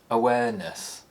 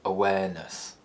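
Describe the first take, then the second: First: The pitch falls from a high starting point. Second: The pitch falls from a low starting point. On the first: "high falls" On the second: "low falls"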